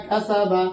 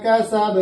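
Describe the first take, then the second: First: কাসাবা read with a full final বা vowel, কা-সা-বা; wrong reading with vowel. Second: কাসাব ending in a stopped, bouncing ব with no vowel; qalqala ending. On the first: Teacher reads কাসাবা with a full final vowel before correcting it. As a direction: end কাসাবা on an open বা, the take the teacher rejects. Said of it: "বা জবর উচ্চারণ হবে না". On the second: Teacher demonstrates the correct qalqala ending on কাসাব. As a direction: close কাসাব on a sakin ব with a qalqala echo. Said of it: "কলকলা হয়ে যাবে". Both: Shown as a demonstration.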